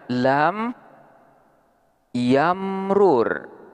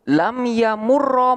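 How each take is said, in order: First: The two r sounds stand apart, split by a vowel. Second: The two r sounds merge into one long r. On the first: "boleh juga dibaca lam yamrur" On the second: "Contohnya seperti lafaz lam yamurra"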